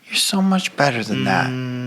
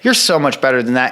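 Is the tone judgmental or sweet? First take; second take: sweet; judgmental. First: It is said in a sweet, gentle tone. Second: It is said in a judgmental tone.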